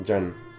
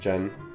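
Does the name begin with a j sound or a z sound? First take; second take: j sound; j sound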